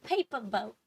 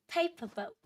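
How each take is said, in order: First: Said in the usual way. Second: Put-on high, cute baby-talk voice; cutesy baby voice. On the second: Shown as a demonstration. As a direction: say it sweet and babyish, pitched up. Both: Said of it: "we're trying to say it in a cute way".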